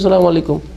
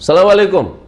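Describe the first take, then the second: First: The greeting is said at moderate volume. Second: The greeting is said loudly. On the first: Only those awake nearby can hear it. The speaker calls it right. "এইরকম মধ্যম আওয়াজে" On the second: It disturbs the speech and draws everyone's attention. The speaker calls it wrong. "আমাকেও ডিস্টার্ব করছেন"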